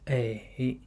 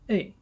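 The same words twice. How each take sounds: First: The pitch dips low, then rises. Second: The pitch falls sharply from high to low.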